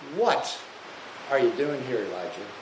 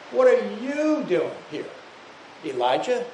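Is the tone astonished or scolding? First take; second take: scolding; astonished. First: It is said in a scolding, reproachful tone. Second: It is said in an astonished, incredulous tone. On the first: The listener is rebuked for moping in self-pity. "You're engaging in self-pity. You're moping. You're complaining" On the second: The listener is reminded of his greatness and past deeds. "Or you could say it this way. You're the great prophet of God"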